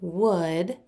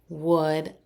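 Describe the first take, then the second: Both takes have the same delivery.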